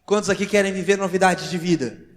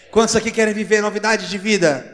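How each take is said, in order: First: Loud preacher's call to the crowd; raised, rousing question; rallying call. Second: Higher, much louder preacher's shout; loud, high, insistent call; forceful rallying cry. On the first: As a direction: call out firmly to a whole congregation. Preacher rallying the congregation to respond. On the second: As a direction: push the question out to rouse the congregation. Repeats the rallying question more forcefully. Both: Real, not acted.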